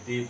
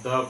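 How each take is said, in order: First: The word ends in a long ee vowel. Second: The word ends in a short, weak vowel. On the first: "कहीं कहीं दी पढ़ते हैं" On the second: "कहीं कहीं हम द पढ़ते हैं"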